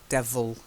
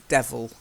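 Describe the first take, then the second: The two takes are said the same way.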